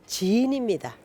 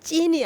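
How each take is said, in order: First: It starts with a plain, lax consonant. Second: It starts with a tense, stiff consonant. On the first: The speaker calls it right. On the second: The speaker calls it wrong. "찐이 아니고"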